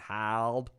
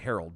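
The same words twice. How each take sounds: First: Herald is said with a local Boston pronunciation. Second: Herald is said with standard pronunciation. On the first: The speaker calls it wrong. "they don't do it right, so it's Boston Herald" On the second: The speaker calls it right. "it's actually Herald"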